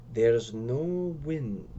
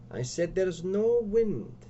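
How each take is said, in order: First: Slow, drawn-out grave statement. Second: Slow, higher repeat with NO wind drawn out; insistent repeat. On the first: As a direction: say it gravely, stretching the words. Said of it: "Ricardo says gravely". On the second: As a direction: stretch "no wind" slowly, pitched up. Ricardo insists, repeating himself. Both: Acted.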